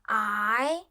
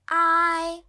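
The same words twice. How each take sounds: First: The pitch rises from middle to high. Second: The pitch stays high and level.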